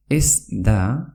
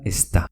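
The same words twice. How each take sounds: First: Said in the usual way. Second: "está" as es-ta, d hardened to t. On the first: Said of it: "se pronuncia está". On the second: Shown as a demonstration. Teacher shows ez da merging, d becomes t. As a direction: say "está" as one word with a t. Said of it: "como una Z T".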